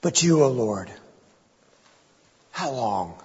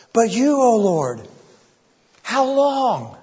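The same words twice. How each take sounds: First: Broken, fading plea. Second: Anguished plea. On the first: David too broken to finish his prayer, fading plea. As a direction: let the voice break and give out. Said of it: "David can't even complete the sentence". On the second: Preacher voicing David's cry to God, high anguished plea. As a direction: voice rising high in desperate pleading. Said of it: "Can you hear it in his voice?". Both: Acted.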